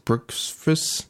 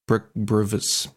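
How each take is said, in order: First: "Brooksvis" asked with a high rising tune, softer; puzzled question. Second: "Brooksvis" sounded out slowly, unsure of the name; slow, halting "Brook-, Brooksvis"; hesitant name try. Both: Real, not acted. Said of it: "B R X V S".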